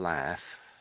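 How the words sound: It is said in an American accent.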